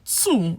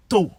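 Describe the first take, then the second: First: "two" with an OO vowel, pitched up; "two" with a rounded oo sound; standard two. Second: "to" said as TOH; "to" rhyming with "go"; regional Nigerian to. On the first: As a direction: say "two" as TOO. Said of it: "Instead of saying two". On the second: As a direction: give "to" a plain O vowel. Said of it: "they will say to". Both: Shown as a demonstration.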